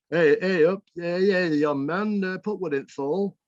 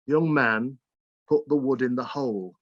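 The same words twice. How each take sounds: First: Put-on higher, louder old Bolton voice of granddad; granddad's broad Bolton dialect. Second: Said in the usual way. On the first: Grandson retelling granddad's order in broad Bolton dialect. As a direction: sing out the old Lancashire phrasing like a northern granddad. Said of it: "my granddad might say something like". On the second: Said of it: "which means".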